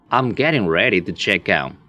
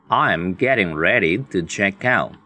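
First: It is spoken at a normal, quick pace. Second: It is spoken slowly and deliberately. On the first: "我先用正常的语速读一次。" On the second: "我慢读一次。"

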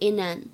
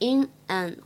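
First: The two words are linked into one. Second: The two words are said separately.

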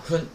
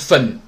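First: The word begins with an h sound. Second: The word begins with an f sound. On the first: The speaker calls it right. "h 和n 去拼音是分" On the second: The speaker calls it wrong. "不要读成分，不是f n 分"

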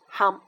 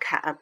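First: It is read with Cantonese pronunciation. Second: It is read with Mandarin pronunciation.

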